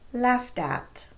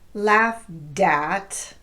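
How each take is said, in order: First: A very light D joins the words. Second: A hard, strong D joins the words. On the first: The speaker calls it right. "It's very light" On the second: The speaker calls it wrong. "It's not a hard D, as in"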